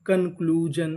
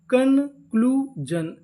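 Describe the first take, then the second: First: Said in the usual way. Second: conclusion stretched very slowly, syllable by syllable; drawn-out demo. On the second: Shown as a demonstration. Teacher slowly sounding out the whole word for students. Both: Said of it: "तो meaning क्या बनी?".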